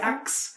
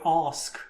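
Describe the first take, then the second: First: The word is said with an 'aks' sound. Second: The word is said in a posh accent. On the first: This is how some other people say it. "some people say Axe" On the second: This is how upper-class people say it. "posh people call it Ask"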